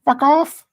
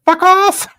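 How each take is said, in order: First: High, loud put-on Indian English retort; mock Indian English punchline. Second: A sudden high, loud Indian English squawk; mock Indian English punchline. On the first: Repeating the chicken joke for viewers, squawked in mock Indian English. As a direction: fire the punchline back in the joke's Indian English voice. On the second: Telling a chat joke, snaps the punchline in mock Indian English. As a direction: blurt the punchline in a put-on Indian English accent. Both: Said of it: "put in an Indian English dialect".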